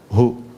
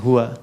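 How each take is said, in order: First: The word ends without the final vowel. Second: The word ends with a final 'a' vowel. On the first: The reader stops at this word. "Kalau kita berhenti di huwa, hu" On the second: The reading continues without stopping. "Jadi baca hu itu disingkat dari huwa"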